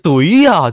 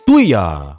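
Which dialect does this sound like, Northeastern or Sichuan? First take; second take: Sichuan; Northeastern. First: It is said in a Sichuan accent. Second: It is said in a Northeastern accent.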